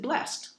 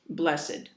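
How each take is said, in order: First: The ending is not said as a separate syllable. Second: The ending is said as a separate syllable. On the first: "then you pronounce it blessed" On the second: "you say the ed"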